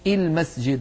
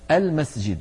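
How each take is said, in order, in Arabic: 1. تبدأ الكلمة بصائت غير 'a'. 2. تبدأ الكلمة بصائت مفتوح 'a'. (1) "ولا يقولون المسجد" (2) "تكون الهمزة مفتوحة دائما، فيقولون المسجد"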